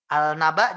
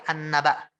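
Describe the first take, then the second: First: "Al-naba" with the L sounded; a clear L in "Al-naba"; lam dibaca jelas. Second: "an-naba" with a doubled, held N; lam lebur berdengung. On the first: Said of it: "Al-naba jadi an-naba". ("Al-naba" dengan lam jelas) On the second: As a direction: hold the N in "an-naba". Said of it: "jadi an-naba". ("an-naba" dengan nun ditahan) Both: Shown as a demonstration.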